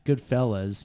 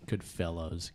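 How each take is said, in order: First: "Goodfellas" with a short -fellas ending; correct pronunciation. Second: "Goodfellows" said with a -fellows ending like the word fellows; wrong pronunciation. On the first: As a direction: say "Goodfellas" as good-FELL-as, ending in -uz. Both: Shown as a demonstration. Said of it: "Good, Goodfellas, not Goodfellows".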